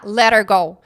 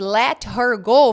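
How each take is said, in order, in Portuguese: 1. As palavras se juntam, e o h some. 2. Cada palavra é dita separadamente e completa.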